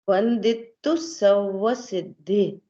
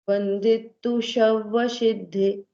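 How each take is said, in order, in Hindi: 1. 'sav' शब्द की शुरुआत साधारण s ध्वनि से होती है। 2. 'sav' शब्द की शुरुआत sh ध्वनि से होती है। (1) "स है" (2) "ऐसा बहुत लोग ऐसे बोलते हैं"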